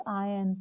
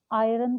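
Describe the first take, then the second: First: आयरन as "aa-yun", with no R; silent R. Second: आयरन as "aay-ran", with a clear R; R sounded. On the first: Teacher correcting for students, आयरन with R left silent. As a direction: drop the R from आयरन. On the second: Teacher showing students what to avoid, आयरन with R sounded. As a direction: pronounce the R inside आयरन. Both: Shown as a demonstration. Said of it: "आयरन को आयरन नहीं बोलते".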